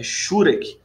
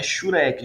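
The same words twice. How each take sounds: First: Shurek said SHU-rek, stress on the first syllable; correct stress on shurek. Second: Shurek said shu-RÉK, stress on the final syllable; wrong stress on shurek. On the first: Teacher corrects the word for students, shurek as SHÚ-rek. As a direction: hit the first syllable of shurek, let the end drop. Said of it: "Não é shurek". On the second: Teacher shows students the wrong way, shurek as shu-RÉK. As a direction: put the weight on the end of shurek, as a mistake. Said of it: "é shurek". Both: Shown as a demonstration.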